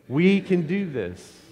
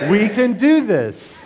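First: It is said flatly, without conviction. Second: It is said with passionate, churchlike energy.

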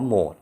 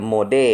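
First: It is said as one syllable, mode. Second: It is said as two syllables, mo-de. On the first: The speaker calls it right. "เขาอ่านว่าโหมด" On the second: The speaker calls it wrong. "อ่านตามตัวเลย"

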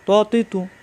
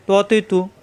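No difference in how they are said.

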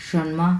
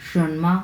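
Both takes have the same delivery.

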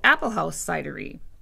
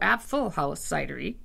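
First: The first word is said as English apple. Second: The first word is said as German Apfel.

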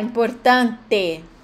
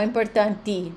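First: The word ends with an e vowel sound. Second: The word ends with an i vowel sound. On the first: The speaker calls it right. "Tem que prestar atenção também para falar importante" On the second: The speaker calls it wrong. "não importanti"

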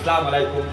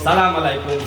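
First: The opening syllable is dropped, giving salam alaikum. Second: The same.

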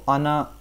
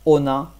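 First: The first vowel sounds like a. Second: The first vowel sounds like o. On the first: This is how native speakers actually say it. "They say on Ana" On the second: This follows the spelling letter by letter. "even though it says Ona"

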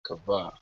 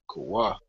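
First: The middle consonant is a V sound. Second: The middle consonant is a W sound. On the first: This is a later, altered pronunciation. "he put in the B" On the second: This is the original pronunciation. "we would have pronounced it Kawu, Kawa"

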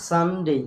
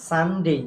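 The two takes are said the same way.

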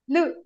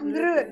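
First: No r sound is heard before the u. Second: An r sound is heard before the u. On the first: The speaker calls it right. "There's no r there. It's only lu" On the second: The speaker calls it wrong. "Not lru, don't say r"

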